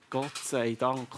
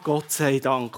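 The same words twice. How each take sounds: First: It is said slowly and earnestly. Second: It is said quickly and offhandedly. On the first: It is a sincere prayer of thanks. The speaker calls it right. "eigentlich ist das ja wie ein Gebet" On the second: It is an empty figure of speech. The speaker calls it wrong. "meistens einfach so beiläufig kommt. So, ah"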